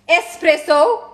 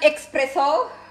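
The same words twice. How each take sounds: First: The word begins with an 'es' sound. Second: The word begins with an 'ex' sound. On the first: The speaker calls it right. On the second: The speaker calls it wrong. "not espresso"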